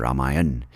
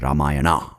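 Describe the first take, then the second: First: Ramayan ending on the n; northern pronunciation. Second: Ramayana with a final "ah"; southern pronunciation. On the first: Comic naming the epic, northern Ramayan without final ah. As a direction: stop Ramayan before any final vowel. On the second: Comic naming the epic, southern Ramayana ending in ah. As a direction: end Ramayana on an open ah. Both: Shown as a demonstration. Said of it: "giving you a north and south pronunciation".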